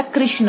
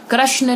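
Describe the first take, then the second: First: Said in the usual way. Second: कृष्ण said as "krashna"; mispronounced vowel. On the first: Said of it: "कृष्ण होता है". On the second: Shown as a demonstration. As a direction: use "ra" for "ri" in कृष्ण. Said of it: "कृष्ण नहीं होता".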